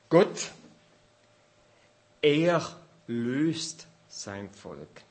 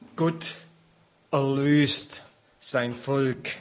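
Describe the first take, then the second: First: The stress falls on 'er', said apart from 'löst'. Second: The stress falls on 'löst', said as one word. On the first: God, he sets his people loose. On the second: God redeems his people.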